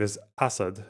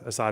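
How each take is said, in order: First: The name is pronounced in an Arabic style. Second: The name is pronounced in an English style. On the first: "the Arabic pronunciation, I believe, is Assad" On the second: "Assad is obviously how people who speak English say it"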